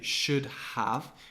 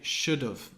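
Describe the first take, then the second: First: The word 'have' is said in full. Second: The word 'have' is reduced to 'of'. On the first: "we don't say should have" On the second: "we say should have, ... taking away the H and the A"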